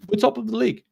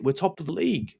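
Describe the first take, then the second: First: "top" pushed higher and emphatic; stress on top. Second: Said in the usual way. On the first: Real, not acted.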